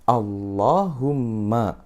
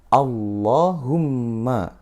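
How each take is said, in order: Both takes have the same delivery.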